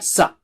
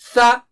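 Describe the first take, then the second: First: The sound starts with a hissing s. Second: The sound starts with a soft th. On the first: The speaker calls it wrong. "don't say it as sa, like in S. No, it is not sa" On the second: The speaker calls it right. "Touch the tip of the tongue to the edge of the upper teeth"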